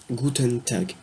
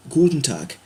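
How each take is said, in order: First: Guten Tag with a full "ten" syllable; careful syllable-by-syllable. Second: Guten Tag run together as "goutn tak"; German greeting pronunciation. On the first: Teacher repeating for learners, Guten Tag syllable by syllable. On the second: Teacher giving bonjour in German, Guten Tag as "goutn tak". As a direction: say Guten Tag naturally, ending in k. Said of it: "se dira". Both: Shown as a demonstration.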